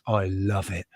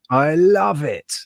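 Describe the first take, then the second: First: Softly, almost to yourself; a muttered aside; quiet murmur. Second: Higher and slow, savouring it; loving every gross bit; gleeful relish. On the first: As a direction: drop it low and soft. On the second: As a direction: stretch it out with delight. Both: Real, not acted. Repeats line, quiet then raised.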